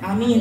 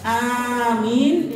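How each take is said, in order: First: The first vowel is kept short. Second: The first vowel is drawn out long. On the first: "boleh juga dibaca pendek amin gitu" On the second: "bilmat, apa hamzahnya dipanjangkan"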